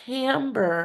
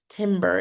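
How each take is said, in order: First: The first vowel is an open 'eh' sound. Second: The first vowel is a short 'ih' sound. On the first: The speaker calls it right. "The reason why it's timbre" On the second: The speaker calls it wrong. "and not timbre"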